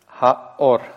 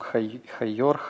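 First: The vowels join with no y sound between. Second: A y sound is heard between the vowels. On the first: The speaker calls it right. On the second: The speaker calls it wrong.

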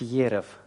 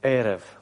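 First: The word begins with a 'ye' sound. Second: The word begins with a plain 'e' sound. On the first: The speaker calls it wrong. "говорить ерев" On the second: The speaker calls it right. "а эрев"

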